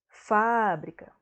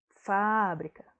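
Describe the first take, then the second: First: The stress is on the first syllable. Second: The stress is on the first syllable.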